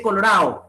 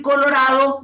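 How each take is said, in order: First: COLORADO ending in -AO without the D; dropped D. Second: Said in the usual way. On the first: Shown as a demonstration. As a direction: leave the D out of "colorado". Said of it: "La pérdida de la D intervocálica". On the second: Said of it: "en vez de decir colorado".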